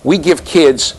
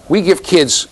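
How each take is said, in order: Both takes have the same delivery.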